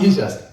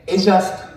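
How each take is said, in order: First: E JUST with a long "ee", then "just"; English letter-name pronunciation. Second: EJUSTO said as one word, starting with an "eh" sound; Japanese-style pronunciation. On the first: Lecturer contrasting the name for the audience, E JUST said with "ee". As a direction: say E JUST as the letter E plus the word just. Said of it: "not E just". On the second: Lecturer showing the audience the Japanese reading, EJUSTO pronounced as one word. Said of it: "But this is, we say". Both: Shown as a demonstration.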